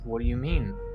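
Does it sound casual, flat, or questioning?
questioning. It sounds questioning, rising at the end.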